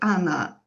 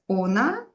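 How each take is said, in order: First: The first vowel is reduced to an 'a' sound. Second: The first vowel is a full 'o' sound. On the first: This is how the word is actually spoken. "but you say Anna" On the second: This is how the word is written. "you write ona"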